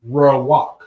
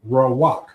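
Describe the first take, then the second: No difference in how they are said.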